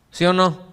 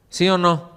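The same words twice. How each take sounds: The two takes are said the same way.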